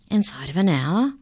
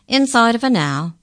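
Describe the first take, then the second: First: Excited. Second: Much higher, louder confirmation; emphatic. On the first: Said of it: "a note of excitement in her voice". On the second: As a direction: confirm it loudly and firmly. Incisor repeats confirmingly. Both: A narrator's reading.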